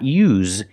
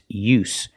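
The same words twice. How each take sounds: First: The word ends with a voiced z sound. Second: The word ends with a voiceless s sound. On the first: The speaker calls it wrong. "don't pronounce the z sound. It's not use" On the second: The speaker calls it right. "Use the true S sound with no vibration"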